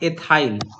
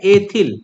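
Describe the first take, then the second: First: The word ends with a long 'ile' sound. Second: The word ends with a short 'il' sound. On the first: The speaker calls it right. "और इसको एथाइल बोलते हैं" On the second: The speaker calls it wrong. "इसको हम लोग एथिल बोल देंगे"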